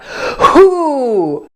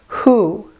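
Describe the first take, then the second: First: The h has a forced, strong burst of air. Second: The h has a light, natural puff of air. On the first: The speaker calls it wrong. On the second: The speaker calls it right.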